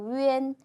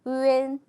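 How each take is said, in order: The two takes are said the same way.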